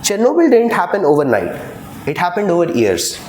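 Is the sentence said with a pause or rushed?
rushed. The clauses run together quickly without a pause. The speaker calls it wrong.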